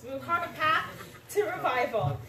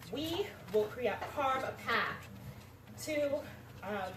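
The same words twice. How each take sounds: First: Higher and louder, composure regained; recovered, emphatic. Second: Stage fright. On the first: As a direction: push through the nerves with force. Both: Real, not acted. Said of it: "I'm sorry, I'm a little nervous".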